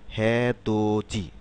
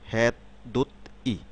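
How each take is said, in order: First: Syllables are linked, ending in ji. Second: Each syllable is said separately, ending in ti.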